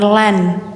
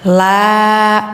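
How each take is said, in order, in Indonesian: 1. Suku katanya diakhiri bunyi n. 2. Suku katanya diakhiri vokal panjang. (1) "jangan lan ya" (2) "panjangkan ya"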